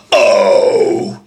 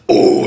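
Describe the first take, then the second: First: Scream with voice. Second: Scream without voice. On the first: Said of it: "it's more like". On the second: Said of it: "So instead of like". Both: Shown as a demonstration.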